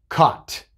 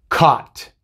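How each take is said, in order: Both takes have the same delivery.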